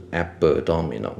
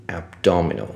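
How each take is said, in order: First: “abdominal”错念成a-be-dominal; 在“abdominal”的b后插一个轻元音; b后多加母音. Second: “abdominal”念成ab-dominal; “abdominal”的b闭住直接接d; b不加母音. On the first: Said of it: "不是abdominal". (错误示范“abdominal”，b带出母音) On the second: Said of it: "我再念一次". (念“abdominal”时b后不插元音) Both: Shown as a demonstration.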